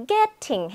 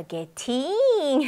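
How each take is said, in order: First: Getting slowly, GET strong and "ting" short; stress on first syllable. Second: Getting with the second syllable hugely stretched, "ge-TEEENG"; overdone wrong stress. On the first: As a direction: put the weight on the front of "getting". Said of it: "그럼 두 번째로". (getting의 앞부분을 강하게) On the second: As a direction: exaggerate a long hard-T ending on "getting". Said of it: "너무 오바예요". (getting의 '팅'을 과장되게 길게) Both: Shown as a demonstration.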